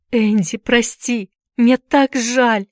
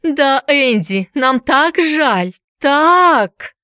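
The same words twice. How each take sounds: First: High, slow, tearful apology; pained apology on the edge of crying; through tears. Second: High, drawn-out jeering imitation; hammed-up taunting whine; mocking mimicry. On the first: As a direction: plead for forgiveness, drawn out and higher. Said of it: "сквозь слёзы проговорила Дженни". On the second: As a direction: exaggerate her apology, slow, high and loud. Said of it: "кривляясь, передразнил её Эллиот". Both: A narrator's reading.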